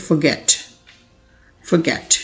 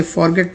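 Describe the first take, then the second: First: Forget as "fuh-GET", weak first vowel; correct pronunciation. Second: Forget as "FOR-get", full "for"; wrong pronunciation. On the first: Teacher corrects learners' reading, correct pronunciation. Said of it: "correct pronunciation इसकी होती है". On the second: Teacher shows learners the mistake, wrong pronunciation. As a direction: say forget with an unreduced first syllable. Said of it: "तो आप गलत पढ़ते हैं". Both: Shown as a demonstration.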